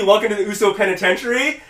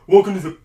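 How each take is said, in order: First: "Welcome to the Uso Penitentiary" said whole, pitched up; full catchphrase in a higher voice; completed catchphrase. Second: "Welcome to the" punched louder and higher, then cut off; catchphrase abandoned mid-phrase; unfinished catchphrase. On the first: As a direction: run the catchphrase through to a rising "Penitentiary". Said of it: "It's supposed to be". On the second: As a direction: break off right after "the", leaving it hanging. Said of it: "he didn't even finish it". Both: Retold or imitated.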